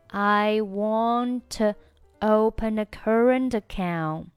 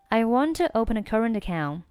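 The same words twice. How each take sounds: First: The sentence is spoken at a slower, normal pace. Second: The sentence is spoken at a faster pace.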